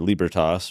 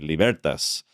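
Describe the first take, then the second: First: It is pronounced in a Germanic-sounding way. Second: It is pronounced in an Italian-sounding way. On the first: "the more Germ- Germanic" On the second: "the more kind of Italian romantic"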